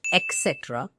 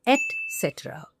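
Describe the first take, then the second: First: "et cetera" as ek-SET-ruh, with a k; mispronunciation demo. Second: "et cetera" as et-SET-uh-ruh, t sounded; correct pronunciation. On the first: Teacher quoting the common error, "et cetera" starting ek. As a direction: swap the first t of "et cetera" for k. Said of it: "often the error people make". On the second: Teacher correcting the error, "et cetera" starting et. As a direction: keep a clean t in "et cetera". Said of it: "It is". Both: Shown as a demonstration.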